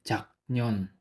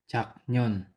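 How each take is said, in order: Both takes have the same delivery.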